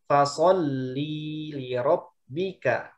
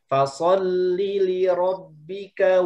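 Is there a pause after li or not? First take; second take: pause; no pause. First: There is a pause after li. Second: Li runs straight into rabbika. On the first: The speaker calls it wrong. "karena ada spasi di li-nya" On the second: The speaker calls it right. "jadi dibacanya secara langsung"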